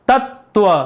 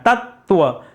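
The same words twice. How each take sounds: No difference in how they are said.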